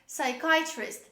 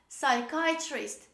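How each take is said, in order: Both takes have the same delivery.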